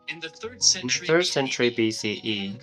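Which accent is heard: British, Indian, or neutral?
neutral. It is spoken in the speaker's ordinary accent. "If I do it in a normal way"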